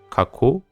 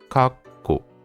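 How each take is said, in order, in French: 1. Les sons k s'enchaînent sans coupure. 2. Une brève coupure précède le deuxième k. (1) "Ça va pas se lire kako" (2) "mais ça va se lire kakko. Vous faites un léger saut"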